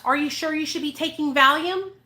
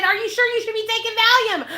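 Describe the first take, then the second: First: Said in the usual way. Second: Incredulous repeat. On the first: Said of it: "because I said". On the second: Retold or imitated. Retelling what made the friend angry, high incredulous emphasis. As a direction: say it like you can't believe this caused anger. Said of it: "She was pissed because I said".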